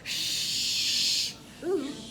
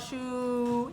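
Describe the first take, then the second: First: The first consonant sound is held long. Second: The vowel sound is held long. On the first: The speaker calls it wrong. "I don't want to lengthen the consonant" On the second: The speaker calls it right. "I lengthen the vowel"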